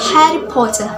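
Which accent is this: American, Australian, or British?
British. It is spoken with a British accent. "In British accents"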